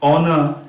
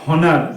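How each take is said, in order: First: The word begins with a vowel sound. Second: The word begins with an h sound. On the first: The speaker calls it right. "এগুলো কিন্তু সব অ দিয়ে উচ্চারণ হচ্ছে।" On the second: The speaker calls it wrong. "এরকম কিন্তু আমরা বলছি না"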